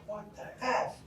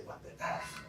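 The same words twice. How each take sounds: First: High, testing mock exclamation; said out loud. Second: Hushed inner voice, half under the breath; thought to herself. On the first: After the crash, testing the reaction out loud, high mock outburst. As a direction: try the swear aloud to see how it feels. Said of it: "So I said out loud". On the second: Retold or imitated. After the crash, rehearsing what she should say, hushed inner voice. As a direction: murmur it as a private thought. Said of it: "I'm supposed to say".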